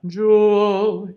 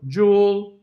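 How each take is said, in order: First: "jewel" very slow, stretched into two syllables, joo-ul; "jewel" slow and stretched, with the schwa sounded. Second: "Jewel" in one syllable, louder and higher; "Jewel" said as jool. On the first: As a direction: draw "jewel" out over two notes, schwa sung. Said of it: "if he's giving you two notes". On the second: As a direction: squeeze "Jewel" into one single beat. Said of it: "set on just one note". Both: Shown as a demonstration.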